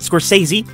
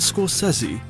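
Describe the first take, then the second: First: The name is said in a plain, everyday way. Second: The name is said in a fancy, exaggerated way.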